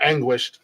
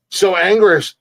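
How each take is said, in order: First: Anguished said ANG-gwisht with the w; correct anguished. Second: Anguished said as ANG-gush, no w sound; mispronounced anguished. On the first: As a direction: fix it: anguished with a clear gw. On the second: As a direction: stumble over anguished, dropping the w. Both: Real, not acted. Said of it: "or anguished".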